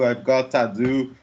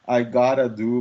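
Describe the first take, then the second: First: The word 'to' is said as a separate syllable. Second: The 'to' is reduced and merged into 'gotta'. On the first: "esse to é bem fraquinho" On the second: "Daí esse uh acaba virando a"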